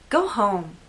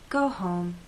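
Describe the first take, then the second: First: It is said in a harsh, rude tone. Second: It is said in a kind, caring tone. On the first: The listener is unwelcome and must leave. "a person who came to a party of mine uninvited. Now they're behaving badly and I want this person out of my house" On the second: The speaker cares that the listener rests. "said to a coworker who's at the office very late"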